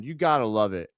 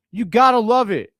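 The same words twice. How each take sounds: First: Said in the usual way. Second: A loud, higher cheer riding the high of the block; excited cheer. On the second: Real, not acted. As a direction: shout the praise out. Fan cheering right after the block.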